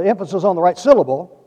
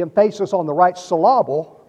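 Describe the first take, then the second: First: Said in the usual way. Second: "emphasis" as em-FAY-sis, "syllable" as sil-LAH-ble; playful misplaced stress. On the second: Shown as a demonstration. Preacher jokes about his reading, "emphasis" and "syllable" stressed on second syllables. Joke mispronunciation, then said correctly.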